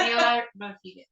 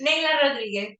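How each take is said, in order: First: Neila Rodriguez in a Scottish accent. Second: Neila Rodriguez, NAY-la with a rolled Spanish R; correct name. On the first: Real, not acted. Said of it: "In my very Scottish accent". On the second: Shown as a demonstration.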